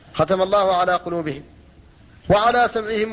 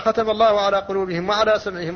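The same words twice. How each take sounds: First: There is a pause after قلوبهم. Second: There is no pause after قلوبهم. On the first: The hearing is grouped with what follows. "هذا وقف كاف" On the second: The hearing is grouped with the hearts as sealed. "لو وصلت فقلت"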